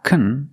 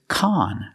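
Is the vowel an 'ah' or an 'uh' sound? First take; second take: uh; ah. First: The vowel is a short 'uh' sound. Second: The vowel is a short 'ah' sound. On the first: The speaker calls it wrong. "It's not kun" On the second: The speaker calls it right. "it's con"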